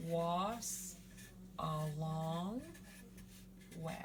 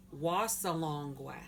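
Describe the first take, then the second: First: "Was a long we" in separate pieces, long pauses between; sounded out. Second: Said in the usual way. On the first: Shown as a demonstration. Teacher building the word for shining star, "Was a long we" sounded out. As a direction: break up "Was a long we", stretching "long". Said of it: "if you put the was sound at the beginning". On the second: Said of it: "Shining star".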